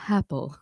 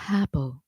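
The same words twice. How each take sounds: First: The vowel starts with an audible puff of breath. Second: The same.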